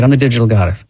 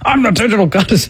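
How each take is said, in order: First: It is said timidly, without conviction. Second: It is said forcefully, with angry conviction.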